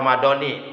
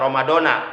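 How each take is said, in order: First: The word ends with an 'i' vowel. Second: The word ends with an 'a' vowel. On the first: The month is tied to this year. The speaker calls it right. "tapi dibaca J R, dibaca Romadoni" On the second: The month is not tied to this year. The speaker calls it wrong. "enggak dibaca Romadona"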